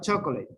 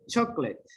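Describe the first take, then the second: First: The middle vowel is pronounced, giving three syllables. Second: The middle vowel is dropped, giving two syllables. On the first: The speaker calls it wrong. "No, not chocolate. Do not pronounce it O" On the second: The speaker calls it right. "imagine this one is not there"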